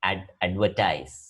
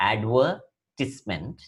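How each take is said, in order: First: Advertise said slowly, ending in a long "tize"; slow model pronunciation. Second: Advertisement said very slowly, ad-VER-tis-ment with a short "tis"; slow model pronunciation. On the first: Teacher contrasts verb with noun for students, slow and clear. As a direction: draw out advertise, landing on "tize". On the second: Teacher contrasts noun and verb for students, very slow. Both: Shown as a demonstration. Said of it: "their pronunciations are different".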